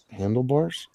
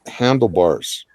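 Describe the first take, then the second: First: Handlebars? asked with a rising, puzzled tune; Handlebars? echoed with a questioning lift. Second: Said in the usual way. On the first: Shown as a demonstration. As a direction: repeat Handlebars? as if not getting the joke yet. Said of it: "Oh, I get it".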